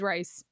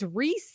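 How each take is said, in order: First: The name has an 'eye' vowel sound. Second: The name has an 'ee' vowel sound. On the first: The speaker calls it wrong. "I thought his name was Rice" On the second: The speaker calls it right. "it's Reese, like Reese's Pieces"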